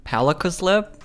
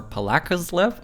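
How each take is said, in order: First: "Palakuslip" as a tentative first guess, stress up front; first pronunciation guess. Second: "Palakuslip" with stress moved to LA, rising at the end; alternative pronunciation guess. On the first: Vlogger guessing at a YouTuber's name, "Palakuslip" stressed on PA. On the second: Vlogger unsure of a French YouTuber's name, "Palakuslip" stressed on LA. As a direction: say "paLAkuslip" as the other option. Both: Shown as a demonstration. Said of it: "don't know how to properly pronounce".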